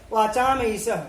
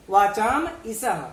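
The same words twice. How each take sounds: First: Said in the usual way. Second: वाचाम ईशः said slowly with वाचाम and ईशः kept apart; वाचाम stressed, ईशः placed slowly after it; slow careful split. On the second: Shown as a demonstration. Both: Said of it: "जब हम वाचाम ईशः करते हैं".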